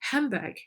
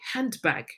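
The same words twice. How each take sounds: First: The sounds in handbag are linked and reduced. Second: Each sound in handbag is said fully and separately. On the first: The speaker calls it right. "we say handbag" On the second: The speaker calls it wrong. "we don't say handbag"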